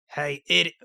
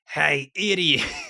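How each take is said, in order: First: It is said in the reader's ordinary voice. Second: It is said in a put-on character voice.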